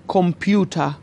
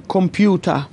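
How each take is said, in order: No difference in how they are said.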